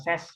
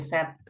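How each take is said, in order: First: The word ends with an s sound. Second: The word ends with a t sound. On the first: The speaker calls it wrong. "Bukan ses ya" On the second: The speaker calls it right. "tapi set"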